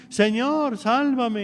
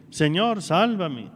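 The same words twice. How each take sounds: First: Pitched high, a pleading cry; high desperate cry for help. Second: A plain, earnest plea, no fear in it; plea of need. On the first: Peter sinking, cries to the Lord: a high plea. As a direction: cry out to the Lord as you go under. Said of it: "empezamos a gritar". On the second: Peter, no longer afraid, begs out of need: an earnest plea. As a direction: ask out of need, not terror. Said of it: "ahora grita no de miedo, ahora grita de necesidad". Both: Retold or imitated.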